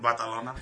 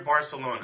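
First: It is said the Spanish way, with a th. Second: It is said the American way, with an s.

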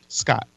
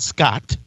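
First: The final T is short, sounding single. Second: The final T is drawn out, sounding doubled. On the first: The speaker calls it right. "Only one T" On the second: The speaker calls it wrong. "not Scott"

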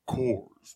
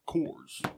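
First: It is said in a deeper voice. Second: It is said in a normal voice.

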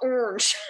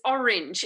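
First: The word is said with one syllable. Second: The word is said with two syllables. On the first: The speaker calls it wrong. "It's not orange" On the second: The speaker calls it right. "there are two syllables. It's orange"

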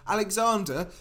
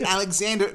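First: It is said in a put-on British accent. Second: It is said in an American accent. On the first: "Or they try and do a British accent" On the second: "They're like, hey"

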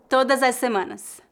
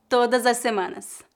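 No difference in how they are said.

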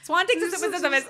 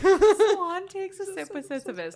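First: It is said quickly. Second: It is said slowly.

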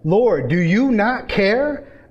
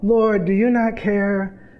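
First: The question sounds annoyed and frustrated. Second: The question sounds gentle and polite. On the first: She is upset at being left to work alone. The speaker calls it right. "No, this is frustration" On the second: She is making a courteous request. The speaker calls it wrong. "we read this with Martha's just so polite"

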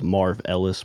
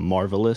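First: It is said as two words, Marv Ellis. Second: It is said as one word, marvelous. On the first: The speaker calls it wrong. "They thought I was Marv Ellis" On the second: The speaker calls it right. "but I'm Marvelous"

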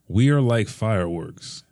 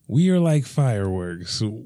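First: The line is read in a natural voice. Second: The line is read in a character voice. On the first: "here it is" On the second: "can you say it again in their voice?"

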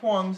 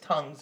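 First: The word starts with a tw sound. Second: The word starts with a plain t sound. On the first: The speaker calls it wrong. "It's not Twongs" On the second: The speaker calls it right. "it's tongues"

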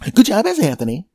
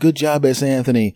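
First: It sounds warm and enthusiastic. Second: It sounds flat and half-hearted.

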